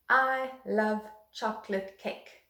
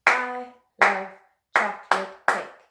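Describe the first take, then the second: First: Slow, even demo of the sentence; slow example sentence. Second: Loud, rhythmic chant, one beat per syllable; clapped rhythm chant. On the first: Teacher introducing the rhythm sentence to young pupils, slow and even. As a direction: say it slowly so pupils can catch the rhythm. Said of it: "I'm gonna use the one". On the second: Teacher leading children in clapping the rhythm, loud rhythmic chant. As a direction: chant it out in time with the claps. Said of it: "So clap it along with me". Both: Shown as a demonstration.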